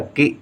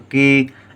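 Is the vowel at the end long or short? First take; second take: short; long. First: The final vowel is cut short. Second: The final vowel is held long. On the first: The speaker calls it wrong. "गलती से छोटी ई की मात्रा लिख दें" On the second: The speaker calls it right. "देर तक हम बोल रहे हैं, देर तक आवाज आ रही है"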